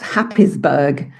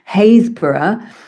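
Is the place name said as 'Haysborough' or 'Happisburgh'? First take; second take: Happisburgh; Haysborough. First: The name is said as spelled, Happis-burgh. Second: The name is said as Hays-bor-ough. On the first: "but it's spelt Happisburgh" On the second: "we have a place called Haysborough"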